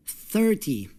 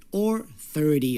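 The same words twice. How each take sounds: First: Put-on thirty said thirTY, the TY raised high like a teen number; thirty with a wrong-sounding stress on the end; stress on second syllable. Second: Thirty said THIRty, strong first syllable and a falling end; stress on first syllable. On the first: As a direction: push the weight onto TY in thirty. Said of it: "Listen for the stress". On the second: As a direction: lean on THIR in thirty. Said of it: "the stress will be on the first part". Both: Shown as a demonstration.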